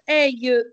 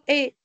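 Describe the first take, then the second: First: The word is said with an 'eye' diphthong. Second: The word is said as a plain 'eh' vowel. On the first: The speaker calls it wrong. "tu ne vas pas dire aïe" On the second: The speaker calls it right. "Tu vas dire et"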